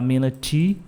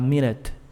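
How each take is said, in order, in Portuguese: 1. Todos os sons são ditos claramente. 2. Os sons finais são engolidos e reduzidos. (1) "Não vou falar minute" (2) "Vou falar minute. Bem comido o som também"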